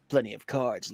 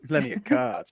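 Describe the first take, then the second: First: It is said in the speaker's ordinary accent. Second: It is said in a put-on southern accent.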